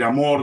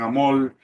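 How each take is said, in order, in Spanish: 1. Se dice con una pronunciación peruana estándar. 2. Se dice con una pronunciación caribeña. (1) "En vez de decir amor" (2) "dicen amor ... los caribeños que no pronuncian bien las palabras"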